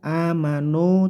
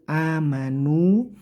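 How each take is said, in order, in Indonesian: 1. Vokal akhir condong ke bunyi o. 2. Vokal akhir adalah bunyi u yang jelas. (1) "Hati-hati tidak miring ke o, amanu tidak" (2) "tapi u, amanu"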